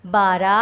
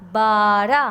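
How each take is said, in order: First: Said in the usual way. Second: بارہ stretched as baaa-ra, rising; teacher sounding out بارہ slowly; drawn-out pronunciation. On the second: Shown as a demonstration. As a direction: hold the first vowel of بارہ. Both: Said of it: "آپ کو اس کے بولنے سے".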